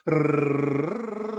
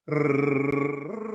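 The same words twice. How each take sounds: First: A rolled R sung on a raised note; high rolled r. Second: Sustained rolled r on a sung pitch; rolled r on a note. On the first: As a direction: roll the r on a higher sung note. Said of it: "higher note for the rrr". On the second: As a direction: hold a buzzing r on one steady note. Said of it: "Try that one". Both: Shown as a demonstration.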